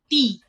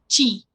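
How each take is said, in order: First: The word begins with a t sound. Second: The word begins with a ch sound. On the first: This is the Paraguayan Guarani form. "la palabra ti, que significa nariz" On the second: This is the Mbya form. "para los mga la pronunciación es chi"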